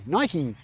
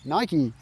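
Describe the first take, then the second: First: It is said as Americans say it. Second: It is said as Americans say it.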